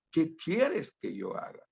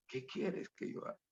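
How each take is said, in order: First: Said in the usual way. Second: Hushed breathy whisper of the question. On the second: Shown as a demonstration. Preacher whispering the question to himself, almost silent. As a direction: whisper it as a private prayer.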